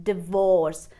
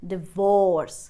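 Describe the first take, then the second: Both takes have the same delivery.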